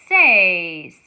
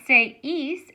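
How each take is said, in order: First: "seis" as one long, loud SAYSS; one gliding syllable. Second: "seis" split as seh-EES; two syllables. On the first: Teacher showing the correct diphthong, "seis" in one loud glide. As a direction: draw "seis" out loudly as a single falling syllable. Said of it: "so I don't hear the I". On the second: Teacher showing the wrong way, "seis" broken in two. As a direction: say "seis" with the i heard apart. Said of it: "It's not seis". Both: Shown as a demonstration.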